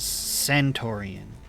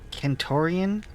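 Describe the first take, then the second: First: The word begins with a soft S sound. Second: The word begins with a hard K sound. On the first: The speaker calls it right. "versus Centaurian" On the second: The speaker calls it wrong. "Kentorian sounds abysmal"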